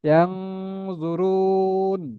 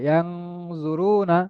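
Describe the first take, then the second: First: The vowel before 'n' is drawn out, ending on 'n'. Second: The vowel is short, and the word ends with 'na'. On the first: The reader stops on the word. "নুনে থামলে তিন আলিফ টেনে পড়বেন।" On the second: The reader continues without stopping. "এই সময় রতে এক আলিফ টেনে পড়তে হবে"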